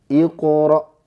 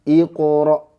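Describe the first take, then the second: Both takes have the same delivery.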